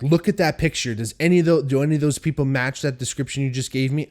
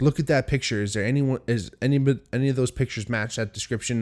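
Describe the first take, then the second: First: Harsh. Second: Said in the usual way. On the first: Retold or imitated. Man demands police compare his roommates' photo, harsh exaggerated demand. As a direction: push it at them like an accusation. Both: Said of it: "I wasn't being this fucking harsh".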